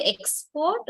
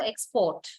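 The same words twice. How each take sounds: First: "export" with the first syllable EX stressed. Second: "export" with the second syllable PORT stressed. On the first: Teacher offering students a choice, "export" stressed on EX. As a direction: put the weight on EX in "export". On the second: Teacher offering students a choice, "export" stressed on PORT. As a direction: put the weight on PORT in "export". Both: Shown as a demonstration. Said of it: "Do you say export or export".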